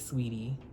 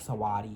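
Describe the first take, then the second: First: Two syllables, with the first vowel dropped. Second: Three syllables, with an ah sound in the middle. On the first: "a lot of people will just say Sweetie" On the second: "the wrong way like Sawadi"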